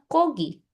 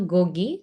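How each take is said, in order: First: The word begins with a voiceless K sound. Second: The word begins with a voiced G sound. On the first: It is how people actually say it. The speaker calls it right. "semua orang ngomongnya Kogi" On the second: It follows the written rule. The speaker calls it wrong. "nggak ada orang yang ngomongnya Gogi"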